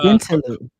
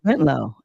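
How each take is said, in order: First: The name is said with three syllables. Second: The name is said with two syllables. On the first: It follows the written spelling. "Like I say, Bentaloo" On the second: It is how most people say it. "people say Bentlow"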